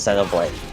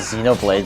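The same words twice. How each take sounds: First: It is said the original Japanese way. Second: It is said the common American way. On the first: "the Japanese pronunciation is Xenoblade" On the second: "a lot of Americans say Xenoblade"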